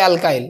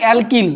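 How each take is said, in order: First: The second syllable is said like 'kyle'. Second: The second syllable is said like 'keel'. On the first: This is how English speakers say it. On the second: This is the local way of saying it.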